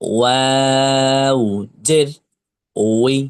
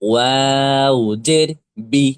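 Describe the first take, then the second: First: The syllable starts with a sound between w and b. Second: The syllable starts with a clear b sound. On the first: The speaker calls it right. "ই এবং বি এর মাঝামাঝি একটি উচ্চারণ আমি করছি" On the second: The speaker calls it wrong. "না, আমি বি বলছি না"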